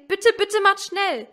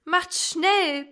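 First: Higher, louder desperate wail; a trapped child begging harder, higher and louder. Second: High, loud urgent plea; a child pleading for rescue, high and loud; urgent wail. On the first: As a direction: beg with everything, both bittes pleading. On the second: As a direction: cry for them to hurry. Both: Acted. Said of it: "Oben jammerten Mutter und Elsie".

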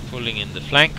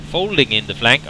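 First: Said in the usual way. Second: FOLDING pitched up as a correction; emphasis on the first word, Folding; stress on FOLDING. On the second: Shown as a demonstration. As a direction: correct yourself by leaning on Folding. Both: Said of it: "I should say".

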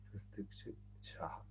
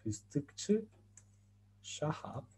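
First: Fıstıkçı Şahap whispered, very soft and slow; slow whisper of Fıstıkçı Şahap, falling at the end; whispered repeat. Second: Fıstıkçı Şahap in careful Turkish, rising on Fıstıkçı; Fıstıkçı Şahap with Turkish ı, ç and ş, the Şahap trailing off; Turkish mnemonic said clearly. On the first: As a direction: breathe Fıstıkçı Şahap slowly to help memorizing. Teacher repeats the mnemonic rule. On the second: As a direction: spell out Fıstıkçı Şahap sound by sound for students. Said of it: "una frase que nos enseñan a nosotros". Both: Shown as a demonstration.

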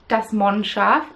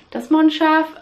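First: Das Mondschaf said slowly with a German d as t; German pronunciation. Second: Das Mondschaf said higher and louder, German style; emphatic German name. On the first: Knitter names the German yarn dyer, pronouncing it carefully. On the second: Knitter repeats the German yarn name with emphasis. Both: Shown as a demonstration. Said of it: "for those who don't speak German".

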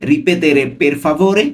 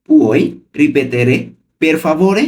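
First: Said in the usual way. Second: পুই রিপেতেরে stretched slowly, then পের ফাভোরে; slow and clear. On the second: Shown as a demonstration. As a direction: spell it out slowly for learners. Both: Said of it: "আমি কিন্তু ভেঙে ভেঙে বলছি".

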